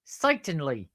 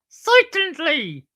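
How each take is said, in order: First: Lightly attempted comic catchphrase; a hint of slapstick stooge voice; Curly from the Stooges. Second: Very high, loud, slow stooge squeal; Curly from the Stooges. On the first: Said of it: "that sound like Curly and Moe". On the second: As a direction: exaggerate the catchphrase way up high. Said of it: "sound like Curly and Moe from". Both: Shown as a demonstration.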